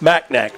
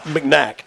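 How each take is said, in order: First: The first syllable has a full 'mac' vowel. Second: The first syllable has a reduced, weak vowel. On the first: The speaker calls it right. "Macnack, like big" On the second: The speaker calls it wrong. "it's not McNack"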